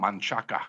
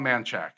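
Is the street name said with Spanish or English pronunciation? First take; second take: Spanish; English. First: The name is said with Spanish pronunciation. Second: The name is said with anglicized English pronunciation. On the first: The speaker forces the original pronunciation. "I don't say like" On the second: The speaker goes along with the local usage. "I'm cool with it. I'm like"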